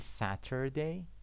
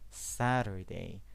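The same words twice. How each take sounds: First: The middle T is a clear, crisp T sound. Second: The middle T is a quick flap, like D. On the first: "You can say Saturday" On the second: "It's more natural to say Saturday"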